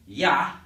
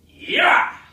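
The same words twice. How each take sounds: First: A light shout without deep abdominal power. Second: A deep shout driven from the abdomen.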